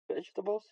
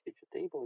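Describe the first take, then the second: First: The ending is reduced, unlike the word table. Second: The ending sounds like the word table. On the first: The speaker calls it right. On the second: The speaker calls it wrong.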